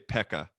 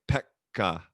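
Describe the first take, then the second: First: The k is short, in an English way. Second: The k is held long, in a Finnish way.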